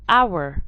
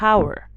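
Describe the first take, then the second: First: The word begins without an H sound. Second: The word begins with an H sound. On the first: The speaker calls it right. "the H is silent" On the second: The speaker calls it wrong. "not our"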